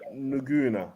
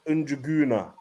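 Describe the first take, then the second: First: The name is said without a J sound. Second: The name is said with a J sound. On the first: "I wouldn't have pronounced the J" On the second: "I went with Unjuguna, but he said I was wrong"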